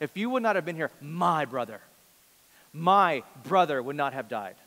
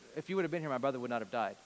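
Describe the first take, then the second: First: My brother is said with strong emphasis. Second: My brother is said plainly, without emphasis.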